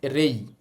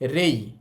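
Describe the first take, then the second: No difference in how they are said.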